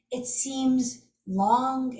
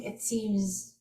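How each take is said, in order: First: It seems long, stretching long out slowly; drawn-out long. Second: Said in the usual way. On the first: Shown as a demonstration. Telling viewers how tapping feels at first, slowly drawn out. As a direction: drag the phrase to sound endless.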